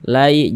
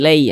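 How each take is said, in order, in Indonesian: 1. Vokal itu meluncur dari bunyi 'a' yang terbuka. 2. Vokal itu meluncur dari bunyi 'e'. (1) "Kita baca lai" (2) "jangan dibaca lei"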